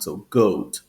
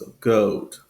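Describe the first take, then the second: First: The vowel has a General American sound. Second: The vowel has a Southern British sound. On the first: "in General American English, it's an O sound" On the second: "In Southern Standard British English, it's a more of an O sound"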